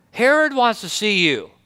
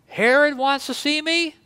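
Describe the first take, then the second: First: Said in the usual way. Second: Higher incredulous question; a mock surprised question about Herod. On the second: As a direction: disbelief that Herod would ask. Jesus hears of Herod's summons.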